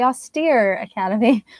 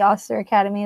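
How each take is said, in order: First: The first word ends with a long 'steer' sound. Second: The first word ends with a short 'ster' sound. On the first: The speaker calls it right. "it's the Austere Academy" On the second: The speaker calls it wrong. "it's not the Auster Academy"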